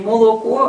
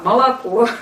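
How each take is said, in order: First: It is said with a regional village pronunciation. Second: It is said with a standard, announcer-like pronunciation. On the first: This is how the older rural generation spoke. The speaker calls it wrong. "не молоко" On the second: This is how children were taught at school. The speaker calls it right. "а молоко. Вот смотри, как диктор говорит по телевидению"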